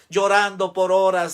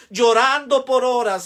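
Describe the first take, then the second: First: Said in the usual way. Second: Fervent outcry. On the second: Acted. Emotional peak of testimony prayer.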